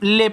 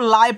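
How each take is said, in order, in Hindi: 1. स्वर एक सादा 'ay' ध्वनि है। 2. स्वर 'aa' और फिर 'e' में बँटा है। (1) "इसको हम ले पढ़ते हैं" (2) "लेकिन कोई बच्चा इसको लाए पढ़ देता है"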